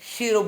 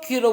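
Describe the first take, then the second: First: The name begins with an SH sound. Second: The name begins with a K sound. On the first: "शीरो बोलते हैं" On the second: "कुछ लोग कीरो बोलते हैं"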